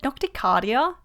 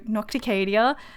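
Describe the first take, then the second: First: The title is said in an Australian way. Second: The title is said in a non-Australian way. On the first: The speaker calls it wrong. "such an Australian way of saying it" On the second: The speaker calls it right. "which sounds so much nicer"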